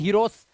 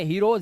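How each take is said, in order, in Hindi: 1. शब्द का अंत s की आवाज़ से होता है। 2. शब्द का अंत z की आवाज़ से होता है। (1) "इसी तरह से इसे हीरोस नहीं पढ़ते" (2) "ज तो जा आता है लास्ट में"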